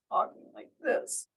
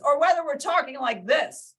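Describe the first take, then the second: First: Unvoiced whisper; hushed tone demo. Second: Loud, high, emphatic delivery; loud tone demo. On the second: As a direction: project it big and high, as a contrast demo. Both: Shown as a demonstration. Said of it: "completely different tone".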